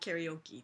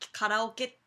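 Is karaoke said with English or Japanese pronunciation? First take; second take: English; Japanese. First: It is said with English-style vowels and stress. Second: It is said with Japanese-style vowels and rhythm. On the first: The speaker speaks English and adapts the word. "なんならカラオケもキャリオキーっていうし" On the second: The speaker shows off knowing the original pronunciation. "本当の発音はカラオケだってことを知ってるぞっていう感じで"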